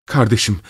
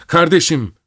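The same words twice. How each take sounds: First: Restrained first cry. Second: High, desperate cry. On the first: Sister appeals to her brother, a restrained cry. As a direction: call to a brother with mild alarm. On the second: Sister screams at brother as he attacks her child. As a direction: cry out sharply, pitch leaping up. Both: A narrator's reading. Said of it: "diye haykırdı".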